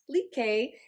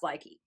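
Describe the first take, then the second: First: The word has a Norwegian pronunciation. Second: The word has an American English pronunciation. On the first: "pronounced like if you're speaking Norwegian" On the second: "In American speak, it's commonly pronounced Likey"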